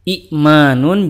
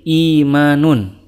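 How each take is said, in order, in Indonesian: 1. Hamzah mengikuti vokal pertama yang pendek. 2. Vokal pertama panjang tanpa hamzah. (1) "apabila ada dua hamzah berurutan, yang kedua itu sukun" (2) "digantikan dengan huruf mad"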